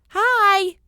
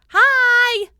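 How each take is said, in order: First: It is said softly and friendly. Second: It is said loudly.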